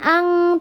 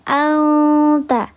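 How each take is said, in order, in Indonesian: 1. Bunyi sengau dibuat di belakang, seperti ng. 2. Bunyi sengau dibuat di depan, dekat t. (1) "bukan ang" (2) "tapi al anta"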